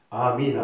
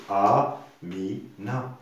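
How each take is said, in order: First: Said in the usual way. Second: "Amina" slowed into a... mi... na; slow counted-out "Amina"; syllable by syllable. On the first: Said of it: "Par exemple". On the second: Shown as a demonstration. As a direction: stretch and separate all three syllables of "Amina". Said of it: "trois syllabes".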